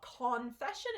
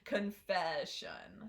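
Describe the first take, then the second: First: The first syllable has a full, unreduced vowel. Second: The first syllable has a weak, reduced vowel. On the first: The speaker calls it wrong. "So it's not confession" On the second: The speaker calls it right. "this sound is reduced"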